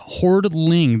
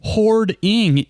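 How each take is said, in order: First: The word is said with an L sound. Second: The word is said without an L sound. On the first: The speaker calls it wrong. "Every person says Hordling. There's no L on this" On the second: The speaker calls it right. "Hoarding is a word"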